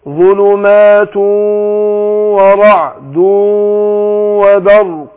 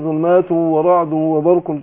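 First: The nasal sound is held for two counts. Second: The nasal sound is cut short, not held. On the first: The speaker calls it right. "شوف مقدار الغنة قد ايه" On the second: The speaker calls it wrong. "كده كسرت انا الاشارات كلها"

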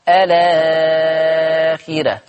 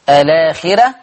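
First: The long vowel is held for six counts. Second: The long vowel is held for two counts.

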